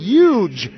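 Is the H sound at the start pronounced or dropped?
dropped. The H at the start is dropped.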